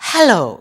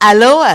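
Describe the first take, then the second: First: The word starts with a breathy h sound. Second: The word starts directly with a vowel sound. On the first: The speaker calls it right. "ஹ. உச்சரியுங்கள்" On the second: The speaker calls it wrong. "அலோ அல்ல"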